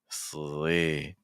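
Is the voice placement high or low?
low. The word resonates low in the chest. The speaker calls it right. "more slee"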